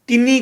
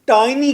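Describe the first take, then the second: First: The first vowel is a short 'i'. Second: The first vowel is an 'eye' sound. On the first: The speaker calls it wrong. "टिनी को टाइनी कैसे कहना है" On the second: The speaker calls it right. "टिनी को टाइनी कैसे कहना है"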